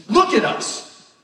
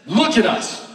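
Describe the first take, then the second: First: Slow, with LOOK stressed hard; Peter's command drawn out; slow emphatic command. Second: Said in the usual way. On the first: Shown as a demonstration. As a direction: drag out each word as a charge. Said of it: "he says".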